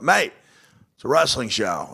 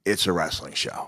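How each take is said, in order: First: Higher-pitched insistent "mate"; lightly voiced Australian pal correcting him; Australian comic. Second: Quoting himself, giving in; lightly acted admission, lower than the retort; own concession. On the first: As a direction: imitate an Aussie comic insisting. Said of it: "Brendan from Australia". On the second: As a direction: concede it, understated. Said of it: "And I went".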